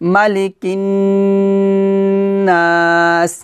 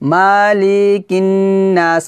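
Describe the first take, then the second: First: The vowels in 'mali' are kept short. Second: The vowels in 'mali' are drawn out long. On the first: The speaker calls it right. "টান হবে না কিন্তু" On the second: The speaker calls it wrong. "আমরা কিন্তু এভাবে পড়ি মালিকিন নাস, মানে এভাবে মালি এগুলোতে টান দেই"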